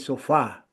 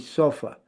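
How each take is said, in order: First: The last syllable has a full, stressed vowel. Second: The last syllable has a short schwa vowel. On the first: The speaker calls it wrong. "It's not stress. Otherwise, we'll say sofa" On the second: The speaker calls it right. "instead of saying sofa, we say sofa"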